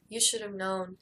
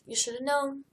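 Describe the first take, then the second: First: It is said in a sad tone. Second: It is said in an accusing tone. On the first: The speaker is hurt by what happened. "it's still kind of sad" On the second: The other person is to blame. "hmm, your fault"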